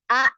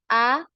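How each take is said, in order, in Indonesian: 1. Vokalnya berakhir dengan hentakan singkat di tenggorokan. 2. Vokalnya memudar secara alami bersama hembusan napas. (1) "seperti ada huruf hamzah lagi. Ya jadi ada penekanan" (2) "biarkan ya suara itu berhenti ya secara alami"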